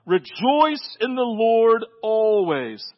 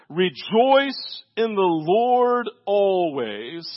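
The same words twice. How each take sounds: First: "Rejoice in the Lord always" stretched out slowly; slow proclamation of "Rejoice in the Lord always"; slow proclaiming. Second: "Rejoice in the Lord always" stretched out very slowly; slow, drawn-out proclamation of "Rejoice in the Lord always"; slow proclaiming. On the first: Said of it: "I will say it again". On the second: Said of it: "Everybody listen to me". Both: Shown as a demonstration.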